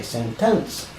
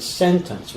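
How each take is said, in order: First: "sentence" with the second syllable fully stressed, sen-TENCE; even syllable stress. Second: Said in the usual way. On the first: Shown as a demonstration. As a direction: say "sentence" slowly, giving TENCE full weight. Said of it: "we don't say sentence". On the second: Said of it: "has a syllable emphasis".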